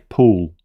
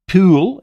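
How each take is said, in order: First: It is said with a New Zealand accent. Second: It is said with an Australian accent. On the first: "I say pool" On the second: "they say pool"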